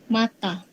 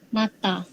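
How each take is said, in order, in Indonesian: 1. Diakhiri dengan vokal a terbuka. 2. Diakhiri dengan vokal a terbuka.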